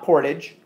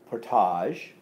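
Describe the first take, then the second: First: The word ends with an 'idge' sound. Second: The word ends with an 'ahzh' sound. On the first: The speaker calls it wrong. "So not portage" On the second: The speaker calls it right. "we see age and we automatically go ... age"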